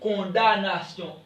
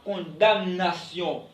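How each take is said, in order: First: The M sound is silent. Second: The M sound is pronounced. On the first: The speaker calls it right. "On dit condamnation. M ... ne se prononce pas" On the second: The speaker calls it wrong. "On ne dit pas condamnation"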